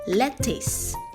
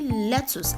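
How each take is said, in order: First: The final syllable sounds like 'tis'. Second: The final syllable sounds like 'tus'. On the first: The speaker calls it right. "there is no tus in the word. It is tis" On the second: The speaker calls it wrong. "If you say lettuce, I'm excited to let you know you are wrong"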